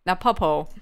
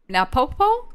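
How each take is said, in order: First: Napopo. said with a falling, certain tune; Napopo. confirmed, dropping at the end; settled statement. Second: Napopo? said with a rising, unsure tune; Napopo? asked back, rising as if checking the name; questioning tune. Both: Shown as a demonstration.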